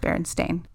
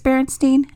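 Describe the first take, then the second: First: The name ends with a 'stain' sound. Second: The name ends with a 'steen' sound. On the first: This is the name as actually written. The speaker calls it right. "instead of Berenstain" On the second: This is the version many people remember. The speaker calls it wrong. "why people think it's Berenstain"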